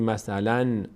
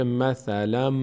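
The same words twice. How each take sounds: First: "مثلاً" ending in a plain masalan; wrong clear N. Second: "مثلاً" ending masalamm, a held hum; merged M. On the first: Teacher shows the form not said, clear N. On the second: Teacher shows tanween turned to m, merged M. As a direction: close "مثلاً" on a long m, no n. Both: Shown as a demonstration.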